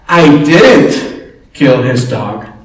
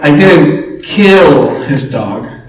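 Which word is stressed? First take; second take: I; kill. First: The stress is on the word 'I'. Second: The stress is on the word 'kill'. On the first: Someone else did it. "Or someone else said" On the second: The speaker did something else to the dog. "What did you do, right?"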